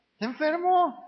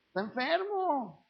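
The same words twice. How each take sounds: First: High, firm, defensive insistence; mock insistent excuse. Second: Slow, soft, pitying sigh of an excuse; mock pitying excuse. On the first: Preacher mimicking a relative who defends a drunk, insistent and high. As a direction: mockingly insist he is just sick. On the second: Preacher mimicking a relative who excuses a drunk, soft and pitying. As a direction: mockingly pity him as a poor sick soul.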